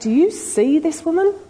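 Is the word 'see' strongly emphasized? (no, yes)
yes. The word 'see' is strongly emphasized. Asks whether he truly perceives who she is. "Do you really see her?"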